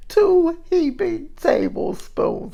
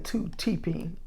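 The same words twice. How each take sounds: First: "heaping" said slowly and higher, with a clear h; careful correction. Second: "teeping" slurred with a t at the front; tongue slip. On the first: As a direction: redo "two heaping tablespoons" slow, high and loud, word by word. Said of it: "there I go again". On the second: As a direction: trip over the words into "teeping". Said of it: "I'm talking too fast today". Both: Real, not acted.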